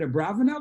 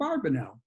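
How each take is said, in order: First: The middle of the name sounds like 'brav'. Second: The middle of the name sounds like 'barb'. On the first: "the preferred pronunciation is a Bravanel" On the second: "in America, ... pronounce it a Barbanel"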